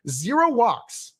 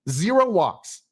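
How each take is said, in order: First: Zero drawn out slow and high; stunned disbelief at Zero; slow, heavy stress on zero. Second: Said in the usual way. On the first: Real, not acted. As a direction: lean hard on Zero, slowly. Exasperated repeated stat.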